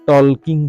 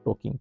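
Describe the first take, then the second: First: The L sound is pronounced before the K. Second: The L sound is silent in the word. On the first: It is a memory aid for the spelling. The speaker calls it wrong. "এনে উচ্চাৰণটো এলৰ উচ্চাৰণ নহয়" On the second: It is how the word is actually spoken. The speaker calls it right. "কোনোবাই সুধিলে টকিং বুলিহে ক'বা"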